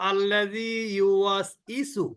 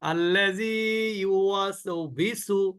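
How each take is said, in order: First: The last syllables start with no consonant. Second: The last syllables start with a v sound. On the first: "এটাও কিন্তু না।" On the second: "ইউওয়াসবিসু না।"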